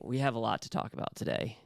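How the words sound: Serious, ominous delivery as if announcing trouble. Bad news is about to be delivered. "Like it's going to be bad news"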